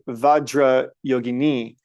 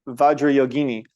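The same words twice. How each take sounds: First: The final i is long. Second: The final i is short. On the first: The name refers to a female. The speaker calls it right. "That's feminine" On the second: The name refers to a male. The speaker calls it wrong. "that's masculine"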